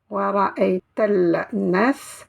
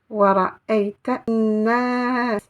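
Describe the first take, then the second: First: An L sound is pronounced before nas. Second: No L sound; the n is doubled. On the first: The speaker calls it wrong. "Je ne vais pas dire" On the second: The speaker calls it right. "mais je vais dire An-nas"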